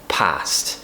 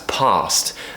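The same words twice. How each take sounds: First: The vowel is the short American-like sound. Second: The vowel is the long British RP sound. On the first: The speaker calls it wrong. "not past" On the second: The speaker calls it right. "if you want to have that R P accent, that classic British accent, you'll want to pronounce past as past"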